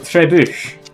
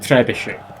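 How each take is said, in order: First: The word ends without a final 'shay' syllable. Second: The word ends with a final 'shay' syllable.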